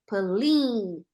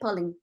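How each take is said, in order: First: The vowel is long. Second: The vowel is short. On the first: The speaker calls it right. "esses dois pontinhos estão indicando que a vogal é longa" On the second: The speaker calls it wrong. "olha como eu não falei pulling"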